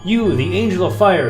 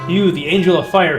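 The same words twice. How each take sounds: First: It is read dramatically with strong inflection. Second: It is read flatly with little inflection. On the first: The speaker calls it right. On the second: The speaker calls it wrong.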